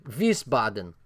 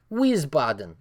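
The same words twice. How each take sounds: First: Wiesbaden with a German v, vees-bah-den; German pronunciation. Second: Said in the usual way. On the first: Shown as a demonstration. Streamer corrects himself to German Wiesbaden.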